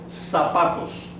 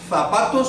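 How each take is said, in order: First: The first sound is a plain s. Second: The first sound is a soft th. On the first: This is how it is said in Latin America. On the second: This is how it is said in Spain. "if you're in Spain"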